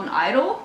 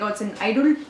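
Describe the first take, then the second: First: Said in the usual way. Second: Mock Indian-accented phone seller; imitated Indian accent. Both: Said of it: "but in his accent he was like".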